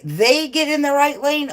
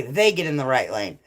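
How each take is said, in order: First: High, questioning THEY GET IN THE RIGHT LANE; surprised question. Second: Said in the usual way. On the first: Real, not acted. Streamer querying a driving tip from chat, surprised question. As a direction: pitch it up as a disbelieving check.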